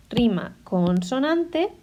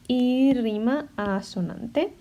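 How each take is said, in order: First: Rima consonante said slowly and clearly; slow, deliberate. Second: Y rima asonante said slowly and clearly; slow, deliberate. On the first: Teacher naming the first rhyme type, slowly. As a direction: spell out the term for the class. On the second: Teacher naming the second rhyme type, slowly. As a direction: set the second term against the first. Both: Shown as a demonstration. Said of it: "hay dos tipos".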